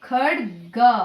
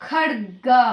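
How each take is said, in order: No difference in how they are said.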